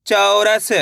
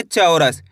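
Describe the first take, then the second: First: चौरस drawn out evenly, last sound held; blended sounding-out. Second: Said in the usual way. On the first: Shown as a demonstration. Teacher blends the letters for learners, चौरस sounded out evenly. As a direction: join the sounds of चौरस slowly and fully. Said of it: "तो मिलके बन जाएगा". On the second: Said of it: "कैसे पढ़ेंगे?".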